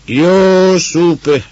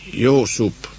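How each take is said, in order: First: Loud, high, drawn-out call; long, ringing high cry; full shout. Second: First, moderately raised call; higher-pitched, restrained call. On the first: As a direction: shout the name far into the empty darkness. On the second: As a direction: call the name into the night, not at full force. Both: A narrator's reading. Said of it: "A kiáltás elveszett".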